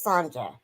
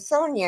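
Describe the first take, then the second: First: The middle consonant is a 'j' as in jump. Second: The middle consonant is a 'y' sound. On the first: "it's pronounced the J as jump" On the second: "it was spelled the same way"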